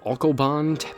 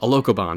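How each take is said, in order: First: The word is said with three syllables. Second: The word is said with four syllables. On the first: The speaker calls it wrong. "I'm saying it wrong" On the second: The speaker calls it right. "there we go"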